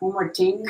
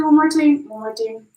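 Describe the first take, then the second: First: Said in the usual way. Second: A slip into a mock Jamaican accent, higher and louder at first; accidental Jamaican lilt. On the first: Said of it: "I don't know why I said it like that". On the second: Real, not acted. Tarot reader wrapping up for Capricorn, slipping into a Jamaican accent. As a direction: blurt it out in an unintended Jamaican accent. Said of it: "I'm not Jamaican. I don't know why I said it like that".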